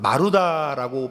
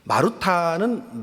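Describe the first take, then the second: First: The last syllable starts with an unaspirated d. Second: The last syllable starts with an aspirated t. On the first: The speaker calls it right. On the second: The speaker calls it wrong.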